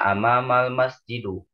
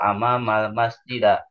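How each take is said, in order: First: The final word ends in an u vowel. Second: The final word ends in an a vowel.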